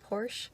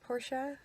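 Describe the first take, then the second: First: The name is pronounced the anglicized way. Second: The name is pronounced the German way. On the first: "I know people say Porsche" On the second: "I am saying it the German way"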